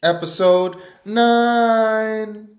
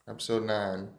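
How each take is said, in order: First: High, loud, slow stretched announcement; booming announcer calls "nine" long and high; drawn-out hype. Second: Said in the usual way. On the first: Acted. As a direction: stretch "Episode nine" out like a big title card. Hyped title then retake.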